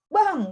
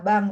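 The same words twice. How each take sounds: First: It is said loudly in a high, sharp pitch. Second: It is said softly and slowly, in a coaxing voice. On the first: The speaker is angry. The speaker calls it wrong. "dengan nada tinggi, nah itu kan menunjukkan uh, kemarahan" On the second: The speaker is sweet-talking to ask for something. The speaker calls it right. "itu menunjukkan intonasi yang lembut, yang pelan-pelan"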